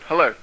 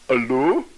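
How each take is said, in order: First: It is said in his own natural accent. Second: It is said with a French accent. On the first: The speaker calls it right. "You know that's me" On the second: The speaker calls it wrong. "wrong one. That was French"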